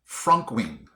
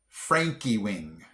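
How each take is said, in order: First: The name is said with two syllables. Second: The name is said with three syllables. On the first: The speaker calls it wrong. "I would have pronounced this Frankwing" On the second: The speaker calls it right. "it's actually Frankie Wing"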